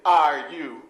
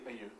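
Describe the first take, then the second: First: The words are said in their full form. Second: The words are said in their reduced form. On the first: "People don't say are you always" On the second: "usually they say are you"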